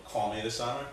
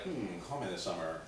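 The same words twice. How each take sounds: First: Said in the usual way. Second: Low, soft pondering hum; lower, hushed second thoughts; tempted musing. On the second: Retold or imitated. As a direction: mull it over to yourself, quietly. Mulls over the note, tempted.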